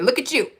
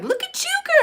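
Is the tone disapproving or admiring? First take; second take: disapproving; admiring. First: It sounds disapproving and critical. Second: It sounds admiring and approving.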